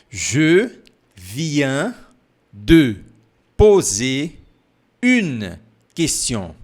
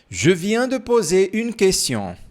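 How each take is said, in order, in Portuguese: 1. A frase é falada devagar. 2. A frase é falada mais rápido. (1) "Mais devagar, não te preocupa" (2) "Agora, um pouco mais rápido"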